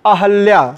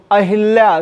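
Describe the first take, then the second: First: अहल्या with an a after ह; no i sound in अहल्या; correct form. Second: अहिल्या with an i after ह; short i in the middle of अहिल्या; wrong form. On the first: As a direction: say अहल्या as a-hal-yaa. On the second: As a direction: say अहिल्या as a-hil-yaa. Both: Shown as a demonstration. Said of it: "शुद्ध शब्द क्या है?".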